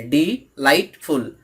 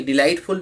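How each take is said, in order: First: "डी, light, फुल" as three separate parts; counting out "डी, light, फुल" part by part; syllable by syllable. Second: Said in the usual way. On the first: Shown as a demonstration. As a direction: break the word into "डी", "light", "फुल" with small gaps. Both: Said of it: "delightful में तीन part है".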